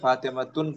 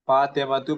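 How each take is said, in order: First: The word ends in an added n sound. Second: The word ends in a plain u vowel. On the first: The speaker calls it wrong. "फातिमतुन पढ़ना सही नहीं होगा" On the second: The speaker calls it right. "फातिमतु पढ़ेंगे"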